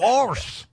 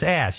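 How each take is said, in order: First: The word has an R sound before the s. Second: The word has no R sound before the s. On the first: The speaker calls it wrong. "They add that R into ass" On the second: The speaker calls it right. "it's ass"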